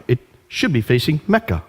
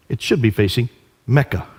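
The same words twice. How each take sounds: The two takes are said the same way.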